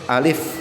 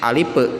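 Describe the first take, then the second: First: The final sound ends cleanly without an echo vowel. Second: The final sound bounces with an added echo vowel. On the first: The speaker calls it right. "Yang benar itu alif" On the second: The speaker calls it wrong. "apalagi alipe gitu ya dibacanya, ada qalqalahnya"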